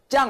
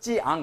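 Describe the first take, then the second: First: It is said as one fused syllable. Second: It is said as two distinct parts. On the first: The speaker calls it wrong. "짱 하지 말고" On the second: The speaker calls it right. "찌앙 이렇게 두, 두 자로 하라고"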